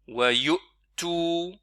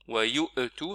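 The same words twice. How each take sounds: First: A clean glottal stop with no echo vowel. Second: A short echo vowel follows the glottal stop. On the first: The speaker calls it right. "là j'ai prononcé Hamza en réalité, je me suis arrêté là" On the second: The speaker calls it wrong. "c'est une erreur"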